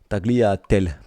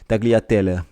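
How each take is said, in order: First: It is said with a plain French accent. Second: It is said with an Italian accent.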